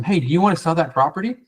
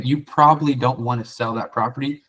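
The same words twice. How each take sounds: First: Eager pitch, a bit higher; salesy. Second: Going negative. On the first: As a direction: push the sale like every other caller. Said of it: "It sounds salesy". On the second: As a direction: say it as if you expect a no. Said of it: "you're going negative". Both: Shown as a demonstration.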